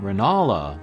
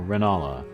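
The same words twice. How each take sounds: First: The name has a marked stressed syllable. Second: The name is said with flat, even pitch. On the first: The speaker calls it wrong. "not Renala" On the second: The speaker calls it right. "the flatter Renala"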